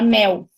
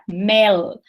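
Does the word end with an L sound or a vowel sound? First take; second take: vowel sound; L sound. First: It ends with a weak vowel sound. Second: It ends with a clear L consonant. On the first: "A gente fala mel" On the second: "o correto seria falar mel"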